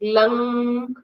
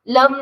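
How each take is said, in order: First: The word ends with a resonant nasal hum. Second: The word ends with a closed m sound. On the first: The speaker calls it right. "अनुस्वार लंग होना चाहिए। लंग nasal sound आता है।" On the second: The speaker calls it wrong. "लम नहीं"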